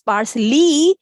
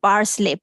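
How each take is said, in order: First: The word ends with an 'ee' sound. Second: The word ends with an 'ay' sound. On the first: The speaker calls it right. "That it's पार्सली" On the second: The speaker calls it wrong. "So that's the wrong pronunciation"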